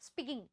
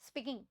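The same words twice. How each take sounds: The two takes are said the same way.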